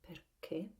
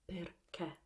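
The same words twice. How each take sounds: First: The final e is pronounced closed. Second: The final e is pronounced open. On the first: This is how southern speakers say it. "while we go down they tend to close it" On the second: This is how northern speakers say it. "mostly in the north we open the e"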